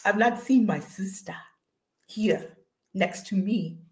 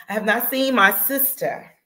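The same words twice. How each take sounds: First: Lightly put-on African accent; playful African accent, slow and measured at the end. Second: Said in the usual way. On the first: Host missing her sister, in a playful African accent. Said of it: "get in my African vo-, voice". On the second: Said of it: "Now I gotta get in".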